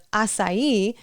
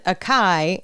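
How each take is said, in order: First: "acai" said ah-sigh-EE; correct pronunciation. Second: "acai" said with a hard k, a-KAI; "acai" in two syllables with a k sound; mispronunciation. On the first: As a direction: say "acai" with an s and a final ee. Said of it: "I need to practice saying acai". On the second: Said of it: "with the wrong pronunciation". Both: Shown as a demonstration.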